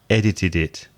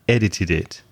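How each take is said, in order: No difference in how they are said.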